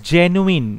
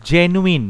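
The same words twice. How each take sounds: The two takes are said the same way.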